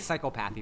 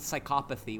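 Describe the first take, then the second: First: The word is said an odd-sounding way. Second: The word is said the usual way. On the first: The speaker calls it wrong. "Because you wouldn't say psychopathy. That sounds weird" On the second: The speaker calls it right. "which is how you say that word"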